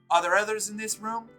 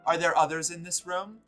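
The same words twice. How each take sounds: First: It is read in a put-on female character voice. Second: It is read in the speaker's own voice.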